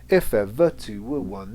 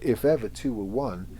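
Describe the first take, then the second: First: Stress falls on every first syllable, starting strong. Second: Stress falls on every second syllable, starting weak. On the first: The speaker calls it wrong. "turn it the other way around and change the stress" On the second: The speaker calls it right. "weak strung"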